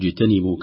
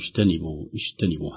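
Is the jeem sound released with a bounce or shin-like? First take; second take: bounce; shin-like. First: The jeem is released with a clear bounce. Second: The jeem sounds soft and close to shin. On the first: The speaker calls it right. "نلاحظ وجوب القلقلة في الجيم الساكنة اجتنبوا" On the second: The speaker calls it wrong. "لو لم تعطى حقها من القلقلة لخرجت قريبة من الشين"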